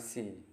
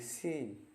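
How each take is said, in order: First: The vowel is cut short. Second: The vowel is held long. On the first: The speaker calls it wrong. "bukan sea" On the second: The speaker calls it right. "tapi sea"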